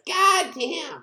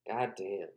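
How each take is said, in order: First: It is said in an imitated character's voice. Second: It is said in the speaker's ordinary voice. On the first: The speaker calls it right. "He says it in his voice" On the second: The speaker calls it wrong. "He doesn't say it like that"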